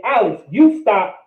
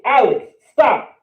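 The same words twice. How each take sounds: First: "you" pushed a little between Alex and stop; stress on you. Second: Said in the usual way. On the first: Shown as a demonstration. Teacher contrasting with and without you, stress on you. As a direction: lean on the word you. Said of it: "That's saying". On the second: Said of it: "You can say".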